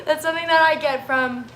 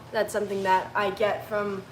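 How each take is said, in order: First: Tearful, voice breaking; laughing through tears; crying. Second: Said in the usual way. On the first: Real, not acted. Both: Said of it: "I did not think that I was gonna be crying today".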